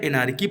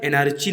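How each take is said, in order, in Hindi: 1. बीच का व्यंजन k की ध्वनि है। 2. बीच का व्यंजन ch की ध्वनि है। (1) "एनार्की पढ़ना है साथियों" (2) "एनार्ची नहीं पढ़ना है"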